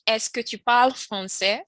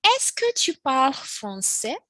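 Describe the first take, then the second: First: Said in the usual way. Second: Slow, higher model question; slow teacher demo. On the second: Shown as a demonstration. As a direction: read it slowly for learners. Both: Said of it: "Next we have".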